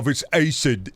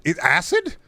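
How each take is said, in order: First: Said in the usual way. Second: "acid" with a short flat A as in "ass", rising high; Midwestern "acid". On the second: Shown as a demonstration. Streamer challenged on his accent, "acid" said ASS-id in Midwestern fashion. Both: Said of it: "The Midwestern accent thing?".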